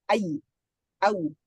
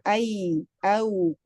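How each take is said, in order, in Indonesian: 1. Bunyinya dikeluarkan dengan ditekan kuat. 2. Bunyinya diucapkan dengan ringan tanpa tekanan. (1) "enggak perlu" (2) "mudah aja"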